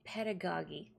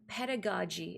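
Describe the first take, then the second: First: The last g is a hard sound. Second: The last g is a soft sound. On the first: The speaker calls it wrong. "and not pedagogy" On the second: The speaker calls it right. "the word is pronounced pedagogy"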